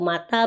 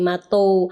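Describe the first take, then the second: First: The final vowel is an a sound. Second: The final vowel is an o sound. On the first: This is the dialect A form. "akhir kosakatanya itu berakhiran dengan A" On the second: This is the dialect O form.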